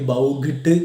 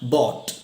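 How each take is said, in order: First: A g sound is added, like 'bowgit'. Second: The vowel is 'aw', with no g sound. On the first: The speaker calls it wrong. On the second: The speaker calls it right.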